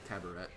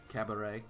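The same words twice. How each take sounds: First: It ends with the t sound pronounced. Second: It ends in an ay sound, t silent. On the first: The speaker calls it wrong. "I always said it was cabaret because it was E T" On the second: The speaker calls it right. "which is supposed to be A, like cabaret"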